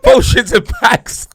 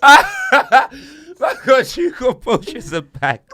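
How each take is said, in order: First: Louder and higher, slow, laughing over the swapped title. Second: Very slow, much higher and louder, stretched through laughter; drawn-out laughing. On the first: Friend mocking a rapper's copycat title, slow laughing. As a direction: giggle out the reversed name. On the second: Friend mocking a copycat title, stretched out in laughter. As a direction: drag the words out while cracking up. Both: Real, not acted.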